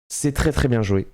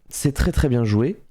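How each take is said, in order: The two takes are said the same way.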